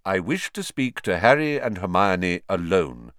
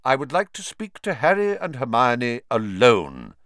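First: Repeated firmly. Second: Put-on lightly firm, curt old wizard; abrupt. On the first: Acted. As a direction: repeat it steadily. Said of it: "Dumbledore repeated". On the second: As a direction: cut them off firmly. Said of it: "said Dumbledore abruptly".

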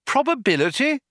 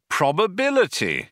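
First: "Probability?" rising like a puzzled question; "Probability?" asked higher, rising at the end. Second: "Probability." said firmly with a falling end; explaining statement. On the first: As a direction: ask "Probability?" with a climbing tune. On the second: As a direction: state "Probability." as a plain answer. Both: Acted.

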